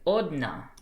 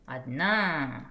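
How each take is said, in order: First: The first vowel is a full 'oh' sound. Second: The first vowel is a reduced 'ah' sound. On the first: The speaker calls it wrong. "it looks like odna" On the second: The speaker calls it right. "but it's adna"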